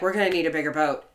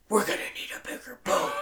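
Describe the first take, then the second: First: It is said casually, without drama. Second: It is said with heavy, dramatic weight.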